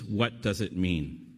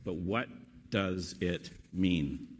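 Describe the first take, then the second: First: Said in the usual way. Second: Slow, word-by-word question; measured question with pauses, falling on MEAN; slow emphasis. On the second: Real, not acted. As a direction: weigh each word of WHAT DOES IT MEAN. Slow emphatic repeat of key question.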